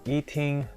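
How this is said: The pitch on the word stays flat. "you just have to keep it a very flat tone"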